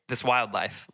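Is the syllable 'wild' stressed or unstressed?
stressed. The syllable wild is stressed.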